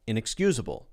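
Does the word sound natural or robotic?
natural. Said naturally, with weak syllables reduced.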